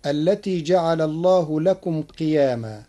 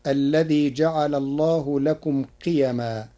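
First: قياما said qi-yaa-maa, long aa after the y; قياما with alif. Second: قيما said qi-ya-maa, short a after the y; قيما without alif. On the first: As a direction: recite قياما with a lengthened middle vowel. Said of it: "قرأ ورش كلمة". (قياما بألف بعد الياء) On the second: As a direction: keep the middle vowel of قيما short. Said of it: "بغير ألف بعد الياء". (قيما بغير ألف بعد الياء) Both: Shown as a demonstration.

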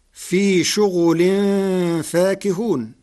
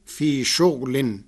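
First: شغل said shughulin, voweled ghain; slow chant, شغل with damma on ghain; Hafs reading. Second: شغل said shughlin, silent ghain; slow, شغل with sukun on ghain; Warsh reading. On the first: Teacher recites the usual reading first, slow. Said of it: "بإسكان الغين". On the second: Teacher demonstrates Warsh's silent ghain, slow. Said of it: "بإسكان الغين فتصير". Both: Shown as a demonstration.

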